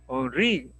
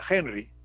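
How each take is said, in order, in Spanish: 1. Se pronuncia al estilo francés, con el acento en la última sílaba. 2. Se pronuncia al estilo inglés, con el acento en la primera sílaba. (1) "el acento en la I" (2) "Si fuese inglés"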